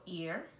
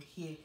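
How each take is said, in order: First: The word begins with a plain vowel sound. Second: The word begins with an added h sound. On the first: "For ear" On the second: "Yoruba people hear"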